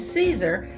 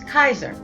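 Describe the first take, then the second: First: The name begins with an S sound. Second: The name begins with a K sound. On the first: "pronounced with an S sound" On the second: "with a K sound"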